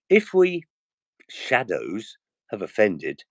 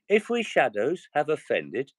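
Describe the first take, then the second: First: The line is read expressively, with stretched words. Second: The line is read flatly, without stretched words. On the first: The listeners are gripped. The speaker calls it right. "if I did it using the voice properly" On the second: The listeners lose interest. The speaker calls it wrong. "I've lost every single person listening"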